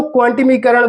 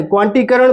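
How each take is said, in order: First: "क्वांटिमीकरण" with an added "मी" syllable; longer variant pronunciation. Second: "क्वांटीकरण" said without a "मी" syllable; shorter variant pronunciation. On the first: Teacher giving the other name some people use, "क्वांटिमीकरण" with the extra "मी". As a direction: say "क्वांटिमीकरण", putting "मी" between "टि" and "करण". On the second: Teacher offering either name to pupils, "क्वांटीकरण" in its shorter form. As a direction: say "क्वांटीकरण", going straight from "टी" to "करण". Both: Shown as a demonstration. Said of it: "कई लोग इसको क्वांटिमीकरण कहते हैं".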